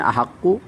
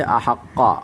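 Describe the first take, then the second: First: The word ends with a short 'u' vowel. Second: The word ends with a short 'a' vowel. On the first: The speaker calls it wrong. "अहक्कु यानी पेश के साथ पढ़ा" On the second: The speaker calls it right. "क़ाफ़ के ऊपर फ़तहा ज़बर ज़बर पढ़ने"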